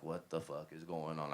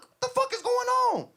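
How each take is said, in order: First: Low, soft, understated reported question; retold worried question. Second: Loud, high-pitched yelled demand; furious yelling. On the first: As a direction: quote her alarm quietly, without acting it up. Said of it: "so she's like". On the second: Retold or imitated. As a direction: yell it in outraged disbelief. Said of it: "I got out the car yelling".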